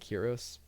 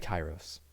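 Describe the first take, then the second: First: The first vowel sounds like 'ee'. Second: The first vowel sounds like 'eye'. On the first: The speaker calls it wrong. "I keep saying Kiros" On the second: The speaker calls it right. "but it's probably Kairos"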